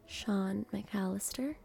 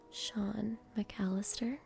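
Both takes have the same delivery.

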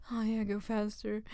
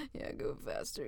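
First: Urgent demand. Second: Dropped to an unvoiced whisper; whispered repeat. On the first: Acted. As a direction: push it out urgently. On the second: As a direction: echo it in a hush.

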